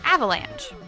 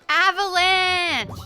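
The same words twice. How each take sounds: First: The word is said flatly, without excitement. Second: The word is said loudly, with excitement. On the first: The speaker calls it wrong. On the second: The speaker calls it right.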